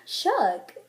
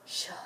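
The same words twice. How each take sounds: First: Impressed shook after a gasp; gasp, then say it in admiration; gasped amazement. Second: Very soft, whispered shook; hushed shock. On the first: Reacting to a really cute outfit, amazed. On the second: Reacting to someone who just died, hushed. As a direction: whisper it as if stunned. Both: Shown as a demonstration. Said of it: "depends on the tone of voice".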